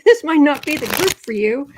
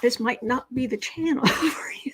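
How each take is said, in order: First: Firm, louder warning to the audience; emphatic louder restatement. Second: Said in the usual way. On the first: Shown as a demonstration. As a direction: push it out louder and firmer on THIS.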